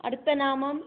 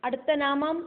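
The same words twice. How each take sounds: No difference in how they are said.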